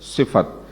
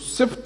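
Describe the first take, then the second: First: The word is said as two full syllables. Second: The word is said as one clipped syllable. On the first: The speaker calls it right. "क्या है लफ्ज? सिफत।" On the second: The speaker calls it wrong. "सिफ्त लफ्ज नहीं है"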